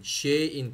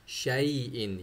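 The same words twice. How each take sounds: First: शे इन with a short e and no y sound; wrong pronunciation. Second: शाई इन with a full y sound after a long aa; correct pronunciation. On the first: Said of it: "शे इन नहीं". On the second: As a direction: give शाई इन its full y glide. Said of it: "या की आवाज़ मुकम्मल आनी चाहिए". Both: Shown as a demonstration.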